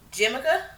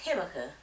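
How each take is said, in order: First: The word begins with a J sound. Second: The word begins with an H sound. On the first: The speaker calls it wrong. "I don't know how you say it" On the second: The speaker calls it right. "it's pronounced Himaka"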